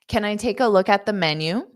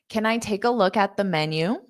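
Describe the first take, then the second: No difference in how they are said.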